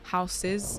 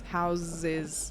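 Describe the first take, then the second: First: The middle consonant is a voiceless hissing s. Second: The middle consonant is a voiced buzzing z. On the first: "no vibrations"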